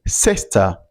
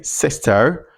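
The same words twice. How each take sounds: First: 'sister' British-style, ending in 'uh' with no R; omitted final R. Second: 'sister' with a clear R at the end; pronounced final R. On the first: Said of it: "this sound is often omitted". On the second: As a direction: sound the R in 'sister', American-style. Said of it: "you don't say". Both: Shown as a demonstration.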